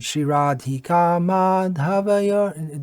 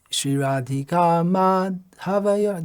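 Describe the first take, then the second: First: The word is said with no gap inside. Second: A gap splits the word after ma. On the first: The speaker calls it right. "it has to be pronounced as one word" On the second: The speaker calls it wrong. "I'm extending the gap"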